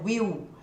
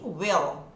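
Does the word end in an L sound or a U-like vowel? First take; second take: U vowel; L sound. First: The word ends in a U-like vowel sound. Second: The word ends in a clear L sound. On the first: The speaker calls it wrong. "como a gente faz no português" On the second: The speaker calls it right. "som de L"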